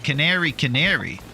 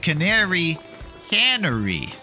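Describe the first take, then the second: First: The second word sounds like canary. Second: The second word sounds like cannery. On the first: The speaker calls it wrong. "I always thought you guys were saying it's the Canary Canary" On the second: The speaker calls it right. "but it's the Canary Cannery"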